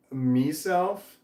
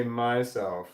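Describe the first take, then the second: First: "meself", first vowel a long ee; "meself" pronunciation. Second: Said in the usual way. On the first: Shown as a demonstration. Asking Irish listeners how they say it, "meself" with an ee. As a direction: say "meself" with MEE as the first syllable. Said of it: "a strong Irish accent". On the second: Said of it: "or do you say".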